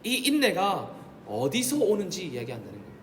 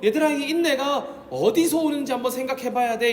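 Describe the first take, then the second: First: Said in the usual way. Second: Higher, louder pastoral urging; voicing Paul urging. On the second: Preacher voicing Paul to his flock, higher and louder. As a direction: call out to the children as Paul would. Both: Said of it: "이렇게 말한다는 겁니다".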